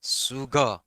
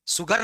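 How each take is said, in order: First: सुगर said "suga", no r at the end; सुगर as "su-ga", the final r dropped; सुगर with a drawn-out, r-less ending; non-rhotic sugar. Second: सुगर said "sugar", r sounded at the end; सुगर with a full, clear final r; the wrong take of सुगर, r pronounced; rhotic sugar, rejected. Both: Shown as a demonstration. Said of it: "सुगर नहीं".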